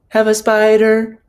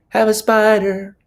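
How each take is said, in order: Both takes have the same delivery.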